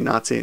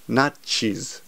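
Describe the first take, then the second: First: It is said with English sounds, ending in zee. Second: It is said with Japanese sounds, ending in chis. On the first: The speaker calls it wrong. "if you say Nazi, no one will understand" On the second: The speaker calls it right. "You have to pronounce it correctly. It's Nachis"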